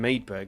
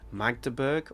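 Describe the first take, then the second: First: The g after the first vowel is dropped. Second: The g after the first vowel is pronounced. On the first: This is the habitual English way of saying it. The speaker calls it wrong. "I've been saying Maidberg because I think that's how we would say it" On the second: This is the German way of saying it. The speaker calls it right. "but actually I think it'd probably be Magdeburg"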